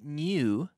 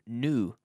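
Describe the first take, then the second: First: The word does not sound like plain N-U. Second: The word sounds almost like plain N-U. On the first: "Some people say new" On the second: "almost as if it's N-U"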